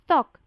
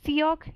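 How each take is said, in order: First: It is one syllable with an open 'aw' vowel. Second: It is said as two syllables, 'see-yok'. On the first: The speaker calls it right. "सॉक। जैसे कि सॉक जिन में था" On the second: The speaker calls it wrong. "सियोक या सोक नहीं"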